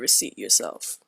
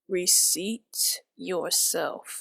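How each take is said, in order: First: The phrase is said at a normal speed. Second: The phrase is said more slowly and deliberately.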